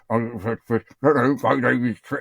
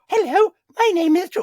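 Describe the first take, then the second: First: It is said in a low, gruff voice. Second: It is said in a high falsetto voice.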